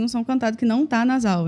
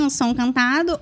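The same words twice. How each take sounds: First: Said in the usual way. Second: Sung tone pushed through the nose; nasal singing voice, resonance in the nose. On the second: Shown as a demonstration. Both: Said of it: "Faz uma demonstração pra gente do nasal".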